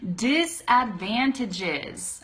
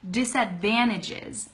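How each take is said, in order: First: The word is said slowly. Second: The word is said fast. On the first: "that's saying it slowly" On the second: "if you want to say it a lot faster"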